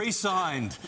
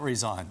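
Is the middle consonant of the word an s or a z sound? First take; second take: s; z. First: It is said re-signed, with a clear s sound. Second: It is said resigned, with a z sound. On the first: Signed a new contract again. The speaker calls it right. "Resigned, not resigned" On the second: Quit the job. The speaker calls it wrong. "not resigned"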